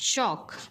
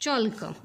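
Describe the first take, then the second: First: The L sound is left silent in the word. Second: The L sound is pronounced in the word. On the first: The speaker calls it right. "चॉल्क करायचं नाही ह्या शब्दाचा उच्चार" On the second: The speaker calls it wrong. "बऱ्यापैकी त्याला चॉल्क म्हणतात"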